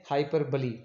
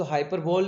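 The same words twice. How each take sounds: First: हाइपरबोली said with a clear final ई, hy-PER-bo-lee; correct pronunciation. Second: हाइपरबोल said the wrong way, ending on a plain ल with no final ई; the word हाइपरबोल clipped short at the end; wrong pronunciation. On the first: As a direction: give हाइपरबोली its long ending ई sound. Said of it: "इसको पढ़ना है हमने हाइपरबोली". (सही उच्चारण: हाइपरबोली, आख़िर में साफ़ ई) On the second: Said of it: "इसको हाइपरबोल नहीं पढ़ना". (गलत उच्चारण: हाइपरबोल, आख़िर में ई के बिना) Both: Shown as a demonstration.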